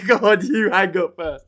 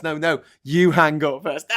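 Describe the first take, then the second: First: Giggly late night call. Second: Loud, slow lovey-dovey insisting; giggly late night call. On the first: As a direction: giggle through a mock lovers' goodbye. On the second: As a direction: playfully insist they hang up first. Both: Retold or imitated. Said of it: "Is how I imagine it went".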